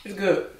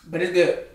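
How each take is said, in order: First: Chewing while talking; mouth full. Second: Talking through food; words around a mouthful; mouth full. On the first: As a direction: say it around a bite. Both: Real, not acted. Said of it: "talk with my mouth full".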